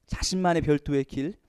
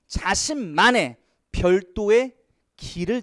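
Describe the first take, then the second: First: Said in the usual way. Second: Drawn out, slow, each word leaned on; teacher stretching 자신만의 out word by word; slow emphatic reading. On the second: Shown as a demonstration. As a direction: read it slowly so students catch it. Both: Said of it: "이런 거 잘 봐야 돼요".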